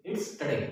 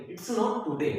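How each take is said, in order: First: "today" said with a short weak first vowel, "tuh-day"; "today" as "tə-day", the teacher's correct model; correct pronunciation. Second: "today" said as "too-day" with a full u in the first syllable; "today" said "tu-day", the way learners get it wrong; wrong pronunciation. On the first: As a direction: give the right form of "today" with a reduced first syllable. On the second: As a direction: show the common mistake on "today", a clear "tu". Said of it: "कुछ लोग इसको क्या पढ़ते हैं". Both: Shown as a demonstration.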